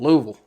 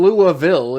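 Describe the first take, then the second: First: The name is squeezed into nearly one syllable. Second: The name is said with several full syllables. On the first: The speaker calls it right. "say it like it's like it's one syllable" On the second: The speaker calls it wrong. "It's not even Louisville"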